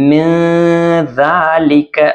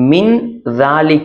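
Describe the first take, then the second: First: The n sound is hidden in a nasal hum. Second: The n sound is pronounced clearly and fully. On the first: "நம்ம மூக்கால மறைச்சு" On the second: "அப்படின்னு இருக்கு"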